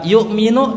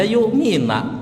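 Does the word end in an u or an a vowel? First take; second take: u; a. First: The word ends with an u vowel. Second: The word ends with an a vowel. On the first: The speaker calls it right. "dibaca yu'minu" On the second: The speaker calls it wrong. "domah dibaca fathah"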